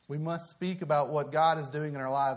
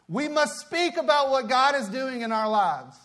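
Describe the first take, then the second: First: The delivery sounds timid and hesitant. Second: The delivery sounds bold and confident. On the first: The speaker calls it wrong. "I said that kind of timid" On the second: The speaker calls it right. "We must speak with confidence"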